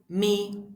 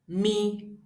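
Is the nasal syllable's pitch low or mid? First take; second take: mid; mid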